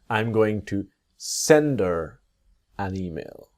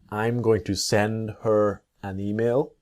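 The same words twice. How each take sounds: First: The h is dropped, linking into 'sender'. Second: The h in 'her' is clearly pronounced.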